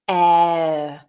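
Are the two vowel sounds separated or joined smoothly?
joined. The two sounds flow together with no stop.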